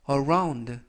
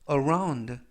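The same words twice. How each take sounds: Both takes have the same delivery.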